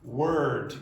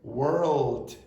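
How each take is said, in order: First: The L sound is left out. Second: The L sound is clearly pronounced. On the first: "A lot of you mispronounce and say that" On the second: "Can you hear when I say world"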